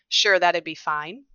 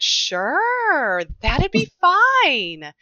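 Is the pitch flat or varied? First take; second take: flat; varied. First: The pitch stays flat and narrow throughout. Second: The pitch swings widely, with long vowels.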